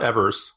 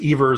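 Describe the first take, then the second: First: The first syllable sounds like the word 'ever'. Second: The first syllable does not sound like 'ever'. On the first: The speaker calls it wrong. "it's not Evers. I know it feels like he speaks for Forevers" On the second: The speaker calls it right. "but it's Evers"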